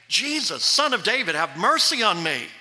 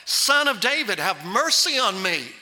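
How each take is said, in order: First: Raised, pleading call for mercy; preacher voicing a beggar's cry. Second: Preacher's emphatic beggar's cry; crying out all the more. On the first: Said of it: "he began to cry out and say". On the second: Acted. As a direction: call out more insistently, pitch raised at the start. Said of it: "he cried out all the more".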